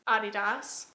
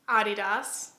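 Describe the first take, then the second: First: It is said the German way. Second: It is said the German way.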